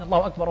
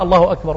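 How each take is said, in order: First: "الله أكبر" with the R of أكبر cut short and not completed; "الله أكبر" with a clipped, incomplete final R; R left unfinished. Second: "الله أكبر" ending on a full, clear R in أكبر; "الله أكبر" pronounced with the final R fully sounded; Allahu akbar with the R. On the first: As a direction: swallow the last R of "أكبر" as you bend down. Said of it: "ولم يتمم الراء من". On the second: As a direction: finish the R of "أكبر" completely while still standing. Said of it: "براء". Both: Shown as a demonstration.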